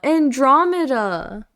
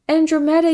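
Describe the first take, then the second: First: The stress is on the second syllable. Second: The stress is not on the second syllable. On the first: The speaker calls it right. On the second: The speaker calls it wrong.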